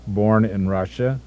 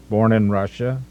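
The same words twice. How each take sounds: The two takes are said the same way.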